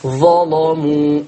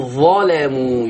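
First: ظلموا slow, with a heavy, dark l; تغليظ ورش. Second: ظلموا with a light, thin l; ترقيق زي حفص. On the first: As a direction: thicken and draw out the lam of ظلموا. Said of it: "مفتوحة وقبلها مفتوح". (ظلموا بلام مغلظة) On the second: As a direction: stretch ظلموا, keeping the lam light. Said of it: "يرقق اللام". (ظلموا بلام مرققة) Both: Shown as a demonstration.

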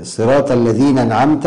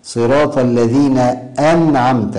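First: الذين أنعمت run together as "alladhīnan'amta"; dropped hamza. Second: أنعمت opened with a firm glottal stop; clear cutting hamza. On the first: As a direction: glide into أنعمت with no glottal stop. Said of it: "تحويل همزة القطع". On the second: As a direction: hit the hamza of أنعمت cleanly. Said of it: "هذا خطأ". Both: Shown as a demonstration.

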